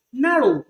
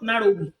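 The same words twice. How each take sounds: First: Said in the usual way. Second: "narrow" with the final W sounded; mispronunciation. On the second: Shown as a demonstration. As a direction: add an extra "wi" to the end of "narrow". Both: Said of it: "not narrow".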